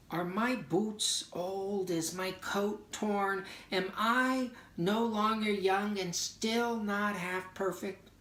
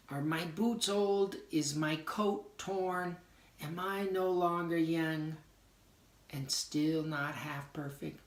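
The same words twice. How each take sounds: First: Higher, slow, pleading questions; reading the poem's doubts, pitched up and searching; doubting questions. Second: Mildly higher questioning quote; quoting the poem's doubts while explaining it; doubting questions. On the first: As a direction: ask each doubt as if it stings. Doubting lines of poem. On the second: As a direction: ask the doubts again, a bit lighter. Quoting poem again. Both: Shown as a demonstration.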